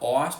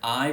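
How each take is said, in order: First: The vowel starts rounded and ends near 'ee'. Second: The vowel starts fronted and ends near 'ee'. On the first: "in Australia, you're more likely to hear one where it's a bit more rounded" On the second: "In New Zealand, you're more likely to hear an I pronunciation where the first component is a bit fronted"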